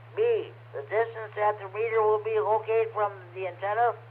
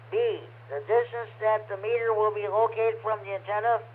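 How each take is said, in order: No difference in how they are said.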